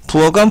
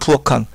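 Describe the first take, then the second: First: The middle consonant is a plain g sound. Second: The middle consonant is an aspirated k sound. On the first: The speaker calls it right. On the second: The speaker calls it wrong.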